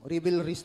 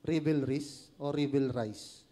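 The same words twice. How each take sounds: First: "Revelries" said as ribilris, ending like "tris"; settled pronunciation. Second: "Revelries o revelries" as ribilris then ribilrais, slow; two pronunciations. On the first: Preacher confirms his pronunciation with the congregation. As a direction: pick the "ribilris" version of Revelries. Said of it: "tama po ako?". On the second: Preacher asks the congregation which pronunciation is right. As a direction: try revelries both ways, rhyming with "tris" then "rice". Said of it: "Tama po ba yung pronunciation ko?". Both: Shown as a demonstration.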